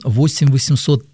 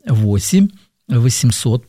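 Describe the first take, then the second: First: The number is said at normal speed. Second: The number is said more slowly.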